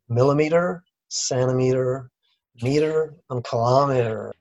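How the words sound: It is said in an American accent.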